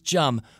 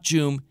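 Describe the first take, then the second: First: The vowel is a short uh sound. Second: The vowel is a long oo sound. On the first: The speaker calls it right. "it sounds like gum" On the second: The speaker calls it wrong. "people always say my name with the oo, like Joom"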